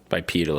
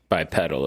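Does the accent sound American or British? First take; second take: British; American. First: It is said in a British accent. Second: It is said in an American accent. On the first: "if you're British" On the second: "if you're from America"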